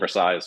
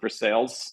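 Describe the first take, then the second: First: The name is said the French way. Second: The name is said the local way. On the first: "as opposed to Versailles, or the, the French uh, pronunciation" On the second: "the locals do pronounce it Versailles"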